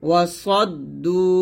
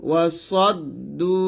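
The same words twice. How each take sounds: The two takes are said the same way.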